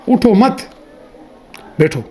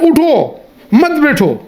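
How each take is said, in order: First: The pause comes after the second word. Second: The pause comes after the first word.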